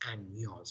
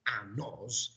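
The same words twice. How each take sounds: First: The middle consonant is a palatal ny sound. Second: The middle consonant is a plain n sound. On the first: The speaker calls it right. "this N has a very particular sound" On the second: The speaker calls it wrong. "this is not años"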